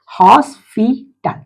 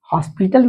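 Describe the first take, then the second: First: hospital said slowly, hos-pi-tal; teacher stretches hospital into three slow beats; slow syllable split. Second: Said in the usual way. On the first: Shown as a demonstration. Teacher to class, splitting hospital slowly. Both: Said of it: "try syllable word".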